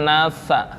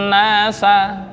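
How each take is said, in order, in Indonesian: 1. Kata "nasa" diucapkan ditahan. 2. Kata "nasa" diucapkan jelas dan dilepas. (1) "bukan nasa, tertahan"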